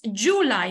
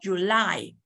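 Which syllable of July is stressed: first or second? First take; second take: first; second. First: The stress is on the first syllable. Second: The stress is on the second syllable. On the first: The speaker calls it wrong. "no decimos July" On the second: The speaker calls it right. "la sílaba tónica es la segunda"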